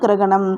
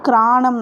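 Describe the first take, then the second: First: The middle 'ga' sound is kept. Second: The middle 'ga' sound is dropped. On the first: This is the correct written form. "சரியான எழுத்து வழக்கு கிரகணம்" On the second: This is the everyday spoken form. "கிராணம் அப்படின்னு சொல்லுவோம்"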